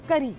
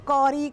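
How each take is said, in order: First: The first vowel sounds like 'u' in 'cup'. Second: The first vowel sounds like 'aw' in 'caught'. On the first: The speaker calls it right. "अंग्रेज़ी में करी कहते हैं" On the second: The speaker calls it wrong. "बहुत से लोग करी को कौरी करके प्रोनाउंस करते हैं, वो भी गलत होता है"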